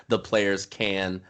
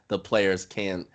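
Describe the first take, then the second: First: The final T of the last word is dropped. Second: The same.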